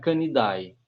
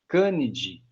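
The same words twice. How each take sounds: First: The ending is said with an audible a sound. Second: The ending is said with no a sound. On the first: The speaker calls it wrong. "não é Canidae" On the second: The speaker calls it right. "Canidae não é"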